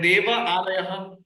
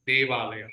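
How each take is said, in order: First: The two words are said separately with a gap. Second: The two words are fused into one word.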